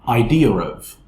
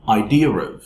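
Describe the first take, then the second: First: The two words are linked quickly with an r sound. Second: The two words are linked quickly with an r sound.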